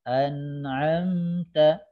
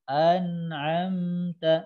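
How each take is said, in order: Both takes have the same delivery.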